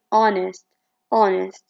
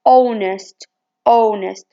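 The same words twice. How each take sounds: First: Honest with an open unrounded ah at the start; American honest. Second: Honest with a rounded British o at the start. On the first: Teacher demonstrates the American honest, open ah. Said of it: "but in American English, they say". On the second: Teacher demonstrates the British honest, rounded o. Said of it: "In British English, they say". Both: Shown as a demonstration.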